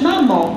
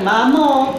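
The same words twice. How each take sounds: First: It is said in a natural, relaxed way. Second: It is said in a stiff, artificial way. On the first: The speaker calls it right. "bardzo ładnie, naturalnie mówiłaś" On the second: The speaker calls it wrong. "a nie tak"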